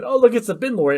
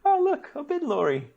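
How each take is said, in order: First: Giggly tourist. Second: Much higher, squealing with glee over the truck; mock-delighted tourist. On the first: Pretend. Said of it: "and we said".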